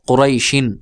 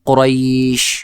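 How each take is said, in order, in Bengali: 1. এটি পূর্ণ 'un' দিয়ে শেষ হয়। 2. এটি ব্যঞ্জনে থামে, স্বর একটু টেনে। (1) "আপনি যদি পড়েন উচ্চারণ করেন তাহলে এইভাবে" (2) "যদি আপনি ওয়াকফ করেন তাহলে হবে"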